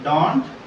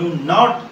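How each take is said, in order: First: It is one word, with stress on the d. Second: It is two words, with stress on 'not'. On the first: "ड sound को अधिक आमे stress देउ छंती" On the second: "नॉट को आमे अधिक stress देउ छंती"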